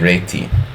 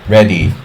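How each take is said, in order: First: The name is said with a Hungarian-style pronunciation. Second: The name is said with an English-style pronunciation.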